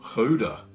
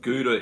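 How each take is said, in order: First: It is said with an Afrikaans pronunciation. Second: It is said with a usual English pronunciation.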